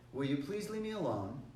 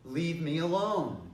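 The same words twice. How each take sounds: First: Mildest, polite asking; nice request. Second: Slow, louder firm command; strongest take. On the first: First of three requests to someone bothering you, politely. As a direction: ask gently, without pressure. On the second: Last warning to someone still bothering you, loud and firm. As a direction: draw it out as a forceful order. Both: Shown as a demonstration. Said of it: "each time I get just a little bit stronger".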